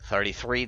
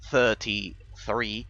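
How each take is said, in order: First: It is said in an American accent. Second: It is said in a British accent. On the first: "that pronunciation is is distinctively American" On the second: "is distinctively uh, British"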